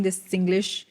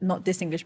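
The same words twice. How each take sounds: First: "this" in "this Singlish" lightly stressed; plain stress on "this Singlish". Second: "this" in "not this Singlish" hit harder and softer overall; stress on THIS. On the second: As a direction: contrastive stress on "this". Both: Shown as a demonstration.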